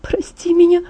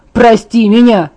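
First: Higher, timid plea for forgiveness; small apology. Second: Louder, scornful shout; furious retort. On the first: Guilty Bella timidly begs Jacob to forgive her. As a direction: ask for forgiveness in a small, high voice. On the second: Angry Jacob throws Bella's apology back at her, shouting. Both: Acted.

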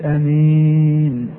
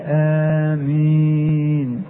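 First: آمين with a brief first A, drawn-out -een; short-A آمين. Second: آمين with both vowels held long, āmīn. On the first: Teacher showing the also-allowed form, short-A آمين. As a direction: keep the start of آمين short, stretch the end, amīn. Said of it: "ويجوز". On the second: Teacher showing what most scholars use, long-A آمين. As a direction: draw out the opening A and the -een of آمين. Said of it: "اللغة المشهورة". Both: Shown as a demonstration.

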